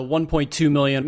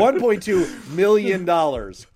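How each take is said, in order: First: "two" leaned on in "one point two million"; odd stress on "two", as if correcting a decimal. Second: "one" hit higher and louder, the rest runs on smoothly; louder and higher, punching "one" as the correction; stress on ONE. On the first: Real, not acted. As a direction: put the weight on "two", not on "one". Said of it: "you put the wrong emphasis on the wrong syllable". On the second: Shown as a demonstration. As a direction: fix the emphasis and land hard on "one". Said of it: "the wrong emphasis on the wrong syllable and you put the comma in the wrong place".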